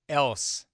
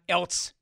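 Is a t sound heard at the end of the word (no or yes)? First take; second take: no; yes. First: The word ends without any t sound. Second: The word ends with an added t sound. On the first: The speaker calls it right. "It's else" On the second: The speaker calls it wrong. "people who put a T in the word else. It's not else"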